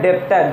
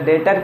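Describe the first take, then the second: First: The word is said with a b sound. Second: The word is said with no b sound. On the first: The speaker calls it wrong. "बहुत कोई इसको डेप्टर बोलता है" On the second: The speaker calls it right. "बी क्या है, silent है"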